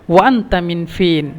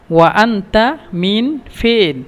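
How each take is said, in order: First: Said in the usual way. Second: Very slow, careful teaching repeat; drawn-out model question; very slow demo. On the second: Shown as a demonstration. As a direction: stretch every word out for learners.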